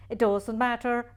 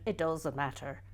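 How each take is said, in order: First: Insist, stressing matter; firm, louder second take; louder insistence. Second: Said in the usual way. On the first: Shown as a demonstration. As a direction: repeat it louder, leaning on matter.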